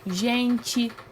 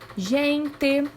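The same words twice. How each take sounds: First: The final vowel sounds like 'i'. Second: The final vowel sounds like 'e'. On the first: The speaker calls it right. "Nós pronunciamos o final E com o sonzinho do I" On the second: The speaker calls it wrong. "A gente não costuma pronunciar desse, dessa forma"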